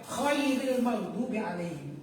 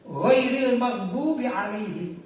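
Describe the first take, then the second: First: The first word begins with a kh sound. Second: The first word begins with a gh sound. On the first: The speaker calls it wrong. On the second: The speaker calls it right.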